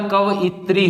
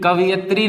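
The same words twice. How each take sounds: First: कवयित्री said ka-va-yi-tri; correct pronunciation. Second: कवियत्री said with vi before ya; wrong pronunciation. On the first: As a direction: stress the yi of कवयित्री. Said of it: "कवयित्री होता है". (कवयित्री को क-व-यि-त्री बोलिए) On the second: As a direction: say कवियत्री as ka-vi-yat-ri, the error. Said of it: "कवियत्री नहीं होता". (कवियत्री को गलत क्रम में बोलिए) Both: Shown as a demonstration.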